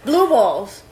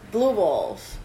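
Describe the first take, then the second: First: Louder. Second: Said in the usual way. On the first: Shown as a demonstration.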